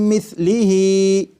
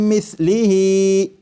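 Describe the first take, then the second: Both takes have the same delivery.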